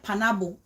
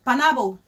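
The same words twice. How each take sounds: First: Panabo said the Pidgin way, pa-na-bo; Pidgin pronunciation. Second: Panabo again, louder, pa-na-bo; Pidgin pronunciation. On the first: [name] showing viewers the Pidgin word Panabo. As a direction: say Panabo, not pineapple. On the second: [name] repeating Panabo to a commenter, louder. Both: Shown as a demonstration. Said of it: "I didn't say pineapple".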